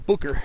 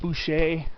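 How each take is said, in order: First: The middle consonant is a k sound. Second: The middle consonant is an sh sound. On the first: This is the name's actual pronunciation. The speaker calls it right. "but it's actually" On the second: This is how many people commonly say it. The speaker calls it wrong. "People a lot of times will pronounce it"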